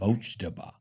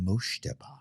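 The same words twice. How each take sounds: First: The middle consonant is a hard 'j' sound. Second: The middle consonant is a soft 'sh' sound. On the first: The speaker calls it right. "It's ja" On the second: The speaker calls it wrong. "That sounds like you're saying shh"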